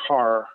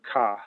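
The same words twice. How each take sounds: First: It is said in a general, non-Boston accent. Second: It is said in a Boston accent. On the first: "I have to work to say car" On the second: "I'm from Boston"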